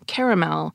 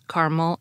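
First: The word is said with three syllables. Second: The word is said with two syllables. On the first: "the three-syllable pronunciation" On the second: "both words having two syllables"

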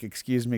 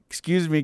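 First: It is said quietly. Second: It is said loudly.

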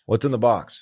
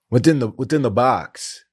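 First: The question is asked in a plain, calm way. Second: The question is asked with strained, desperate urgency. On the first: The speaker calls it wrong. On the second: The speaker calls it right.

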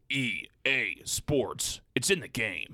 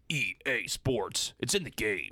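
First: It is said at a slower pace. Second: It is said at a faster pace.

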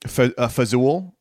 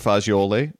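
First: The word is clipped, with no final vowel. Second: The word is said in full, ending in a vowel.

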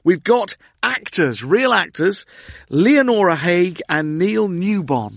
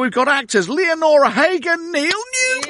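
First: It is said with ordinary, flat energy. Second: It is said with lively, high energy.

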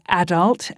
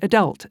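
First: It is said the British way. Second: It is said the American way.

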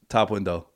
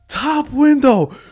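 First: It is said in a calm, even tone. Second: It is said in an angry, heated tone. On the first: The speaker is still composed. "He's mad calm" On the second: The speaker has lost patience. "get more and more angry"

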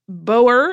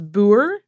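First: It is said with a native English pronunciation. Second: It is said with a Dutch or Afrikaans pronunciation. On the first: "boer is very common in the when you're a native English speaker" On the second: "The Dutch or Afrikaans version, my understanding is boer"

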